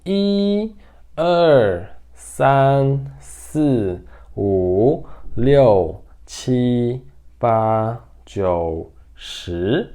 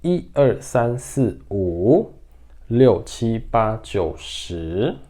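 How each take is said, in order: First: One drawn-out syllable at a time; careful, spaced-out teaching count; slow count. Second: Numbers run together in quick groups; quicker recital of the number list; faster count. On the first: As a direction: count slowly with a gap after each number. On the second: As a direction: count briskly, little gap between syllables. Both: Shown as a demonstration. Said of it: "De forma mais rápida agora".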